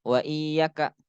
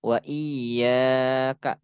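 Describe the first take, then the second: First: "iyyaka" with a short, quick YA; ya dibaca pendek. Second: "iyyaka" with YA held long; dibaca panjang. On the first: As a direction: say "iyyaka" without lengthening the ya. ("iyyaka" dengan ya pendek) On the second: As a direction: stretch the ya in "iyyaka", clip the ka. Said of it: "Dikasih alif". ("iyyaka" dengan ya dibaca panjang) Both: Shown as a demonstration.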